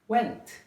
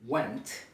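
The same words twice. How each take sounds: First: "went" pitched high, then falling; higher pitch. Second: "went" on a low, level pitch; lower pitch. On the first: Teacher showing accent as pitch, "went" said high. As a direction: lift "went" far up in pitch. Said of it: "Accent is higher pitch". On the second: Teacher contrasting two vowel pitches, "went" said low. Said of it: "there are two E vowels". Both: Shown as a demonstration.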